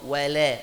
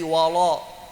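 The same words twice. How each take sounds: First: The l sounds thin and light. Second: The l sounds thick and heavy. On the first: The speaker calls it right. "wala lam tipis" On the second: The speaker calls it wrong. "kalau enggak hati-hati jadi wala"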